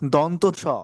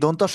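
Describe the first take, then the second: First: The name is said as two separate parts. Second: The name is run together as one word. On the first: The speaker calls it right. "বরঞ্চ দন্ত স" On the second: The speaker calls it wrong. "যদি দন্তস্ব বলা হয় তাহলে আমাদের বর্ণটি ভুল হবে"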